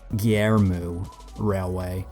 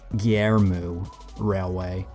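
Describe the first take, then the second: First: The name is said as Gyermu. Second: The name is said as Gyermu.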